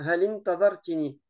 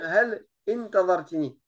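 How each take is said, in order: First: The words are linked and the vowel is dropped. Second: The vowel is pronounced separately without linking. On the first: The speaker calls it right. "on fait la liaison et on ne prononce plus le alif" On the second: The speaker calls it wrong. "On va pas dire"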